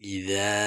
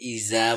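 First: The middle consonant is a soft th sound. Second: The middle consonant is a hard z sound. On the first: The speaker calls it right. "নরম করেই বলতে হবে ইজা" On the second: The speaker calls it wrong. "অনেকে ইজা বলে"

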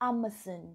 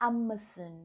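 No difference in how they are said.

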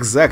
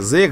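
First: The name is said with an 'a' vowel. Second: The name is said with an 'e' vowel. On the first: The speaker calls it right. "правильно его звать Зак" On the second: The speaker calls it wrong. "вначале его называл Зэк"

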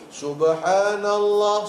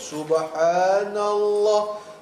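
First: It is said a little faster. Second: It is said slowly and carefully.

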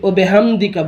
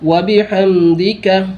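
First: It begins with a short 'o' and 'be'. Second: It begins with a full 'wa' and 'bi'. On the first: The speaker calls it wrong. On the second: The speaker calls it right.

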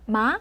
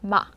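First: The pitch rises smoothly and quickly. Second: The pitch is short and cut off sharply. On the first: "올라가는 성조인데요. 부드럽게 역시. 하지만 속도가 조금 빠르죠?" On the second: "이 점을 딱 찍듯이"

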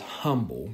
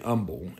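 First: The word starts with an h sound. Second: The word starts without an h sound. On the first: "she says humble because it has an H" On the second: "I usually say humble"

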